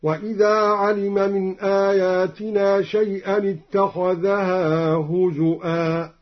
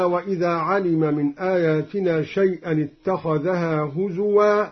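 First: Slow chant, هزؤا as huzu'aa with a glottal stop; measured tajwid, glottal catch in هزؤا; hamza for waw. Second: Said in the usual way. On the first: Shown as a demonstration. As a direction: recite هزؤا with a hamza before the last vowel. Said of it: "بهمز الواو، هكذا". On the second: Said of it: "قرأ الدوري بهمز الواو".

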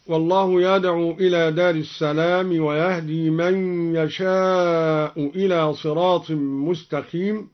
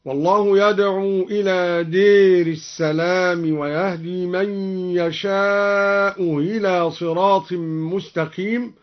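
First: Said in the usual way. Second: دير with a long e, hamza of إلى softened after يشاء; imala and eased hamza. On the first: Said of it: "أمال الدوري كلمة دار". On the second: Shown as a demonstration. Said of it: "وسهل الهمزة الثانية هكذا".

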